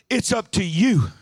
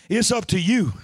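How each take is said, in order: No difference in how they are said.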